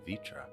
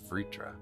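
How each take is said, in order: First: The R after the V is dropped. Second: The R after the V is pronounced. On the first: "Some of them pretend the R is like an I" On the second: "and some of them pronounce it"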